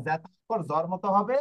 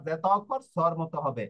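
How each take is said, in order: First: জর said with a buzzing z; voiced zeta. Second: স্বর said with a hissed s; no voicing at the start of স্বর; voiceless zeta. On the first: Teacher contrasting zeta's sounds, জর with voiced z. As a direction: make the start of জর voiced. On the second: Teacher contrasting zeta's sounds, স্বর with voiceless s. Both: Shown as a demonstration.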